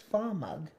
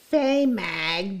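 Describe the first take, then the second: First: The last syllable sounds like the word 'mug'. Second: The last syllable has a vowel unlike 'mug'. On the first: The speaker calls it right. "like M U G" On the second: The speaker calls it wrong. "I say Fay Mag"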